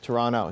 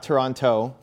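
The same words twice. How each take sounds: First: The last T sound is dropped. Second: The last T sound is clearly pronounced. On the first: The speaker sounds like a local. The speaker calls it right. "We don't pronounce the last T" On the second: The speaker sounds like an outsider. The speaker calls it wrong. "Not Toronto"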